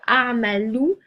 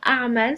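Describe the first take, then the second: First: The word ends with an added final vowel. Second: The word ends without a final vowel.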